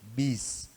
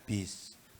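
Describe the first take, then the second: First: The consonant is released with a crisp bounce. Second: The consonant is released with a breathy hiss. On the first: The speaker calls it right. "tapi bis" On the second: The speaker calls it wrong. "bukan bis"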